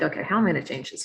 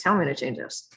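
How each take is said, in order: First: Fast, tumbling worried question; rushed worried thought. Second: Said in the usual way. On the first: Retold or imitated. Facing burned-out nurses, a fast worried question. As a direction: rattle it off in a hurry. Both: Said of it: "So I was like".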